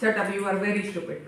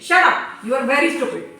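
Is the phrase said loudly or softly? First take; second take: softly; loudly. First: The phrase is said softly and gently. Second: The phrase is said loudly and forcefully. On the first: The scolding has no real bite. The speaker calls it wrong. "धीरे से कहा" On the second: The scolding is really felt. The speaker calls it right. "तो कैसे कहेंगे"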